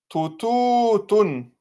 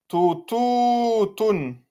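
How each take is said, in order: Both takes have the same delivery.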